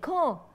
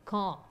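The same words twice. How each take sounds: First: The name is called out loudly. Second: The name is called out quietly.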